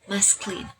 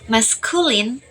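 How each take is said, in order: First: The middle vowel is dropped entirely. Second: The middle vowel is fully pronounced.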